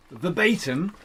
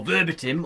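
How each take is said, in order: First: "verbatim" said ver-BAY-tim, long ay. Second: "verbatim" said ver-BIT-im, short i. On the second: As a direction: stress "verbatim" on the first part, short i sounds. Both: Shown as a demonstration. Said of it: "or however you wanna say it".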